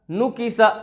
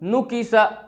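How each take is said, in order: Both takes have the same delivery.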